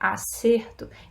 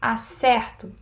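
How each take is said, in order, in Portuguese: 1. A vogal tônica é fechada. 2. A vogal tônica é aberta. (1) "no acerto o som é fechado" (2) "o verbo... mas o som é mais aberto"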